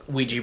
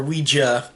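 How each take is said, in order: First: Ouija ending in a "jee" sound; Ouija as WEE-jee. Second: Ouija ending in a "juh" sound; Ouija as WEE-juh. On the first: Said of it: "They say that we're saying it wrong". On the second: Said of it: "as they say in the movie". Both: Shown as a demonstration.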